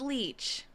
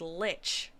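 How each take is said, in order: First: The vowel is a long 'ee' sound. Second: The vowel is a short 'i' sound. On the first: The speaker calls it wrong. "They didn't pronounce it leech" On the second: The speaker calls it right. "meant to say the word lich"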